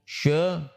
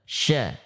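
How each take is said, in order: First: The sh sound is heavy and thick. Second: The sh sound is light and thin. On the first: The speaker calls it wrong. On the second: The speaker calls it right.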